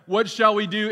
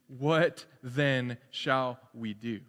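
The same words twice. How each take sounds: First: Pleading crowd. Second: Slow deliberate question. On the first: Acted. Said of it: "John, you're telling us that we need to repent". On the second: Shown as a demonstration. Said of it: "And how does John reply to".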